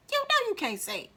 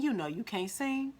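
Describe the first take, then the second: First: Much higher, squeaky repeat; high, emphatic aside; high-pitched insistence. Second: Said in the usual way. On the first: Shown as a demonstration. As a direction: say it way up high, teasing the point home.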